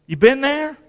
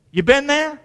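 Both takes have the same delivery.

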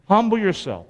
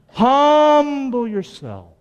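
First: Said in the usual way. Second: Very slow, stretched emphasis on humble; drawn-out exhortation. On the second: Shown as a demonstration. Pastor urging the congregation to humble themselves, slow and emphatic. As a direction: lean hard on every syllable. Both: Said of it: "repeated exhortation".

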